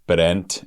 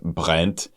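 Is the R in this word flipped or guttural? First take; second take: flipped; guttural. First: The R is a quick flipped tap. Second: The R is made in the throat. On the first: "to do the flipped R" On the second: "instead of"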